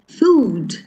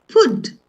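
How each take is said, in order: First: The vowel is long, as in 'mood'. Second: The vowel is short, as in 'good'. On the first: The speaker calls it right. "It's food" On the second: The speaker calls it wrong. "not food"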